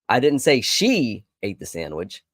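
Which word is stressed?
she. The word "she" carries the main stress. Someone else did it. "I told you it was somebody else"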